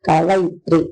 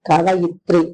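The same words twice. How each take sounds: No difference in how they are said.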